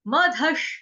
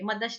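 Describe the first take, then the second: First: The middle consonant is an aspirated dh. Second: The middle consonant is a plain unaspirated d. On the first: The speaker calls it right. "म पूरा ध धनुष वाला" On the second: The speaker calls it wrong. "मदश नहीं है"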